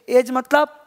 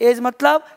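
The two takes are said the same way.

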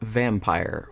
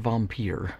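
First: It is said with a plain English pronunciation. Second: It is said with a fancy European pronunciation.

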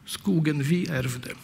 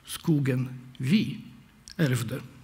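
First: The pronoun is not stressed. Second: The pronoun is stressed. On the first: It names the forest that was inherited. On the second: It was we who inherited the forest.

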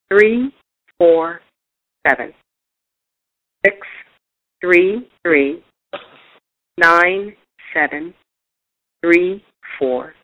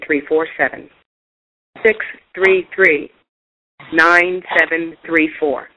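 First: The number is read more slowly. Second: The number is read at normal speed.

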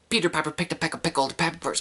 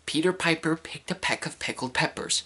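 First: It is said fast. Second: It is said slowly.

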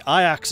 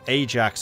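First: The name has a Dutch pronunciation. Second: The name has an English pronunciation. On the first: It refers to the Dutch football club. "Ajax is the Dutch way of saying it" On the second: It refers to the Greek hero. "I know Ajax is the hero"

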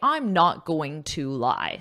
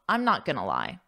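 First: Going to is said fully as two words. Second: Going to is reduced to gonna. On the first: The speaker calls it wrong. "don't say" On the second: The speaker calls it right.

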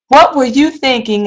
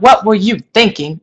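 First: It sounds sincere and genuinely curious. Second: It sounds accusing and judgmental. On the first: The asker really wants to know the answer. The speaker calls it right. "asking sincere questions" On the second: The asker is criticizing the other person's choice. The speaker calls it wrong. "And not ... You hear the difference in the tone"

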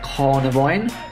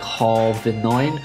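First: The word begins with the sounds 'carni'. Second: The word begins with the sounds 'carvi'. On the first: The speaker calls it right. "I've been pronouncing that wrong this entire time" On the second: The speaker calls it wrong. "I'm pretty sure I say Carvinine"

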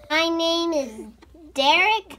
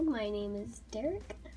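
First: It is said loudly. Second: It is said at a normal volume.

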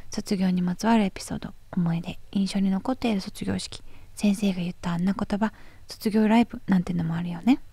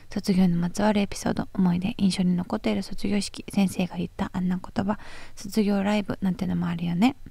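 Both takes have the same delivery.

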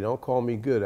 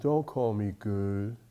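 First: The phrase is said emphatically, with strong force. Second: The phrase is said mildly, with little force. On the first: A pointed, forceful rebuke. The speaker calls it right. "I'm sure he gave it some emphasis" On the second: A meek, passing remark. The speaker calls it wrong. "He didn't say it like that"

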